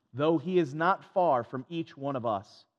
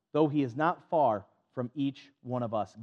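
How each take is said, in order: The two takes are said the same way.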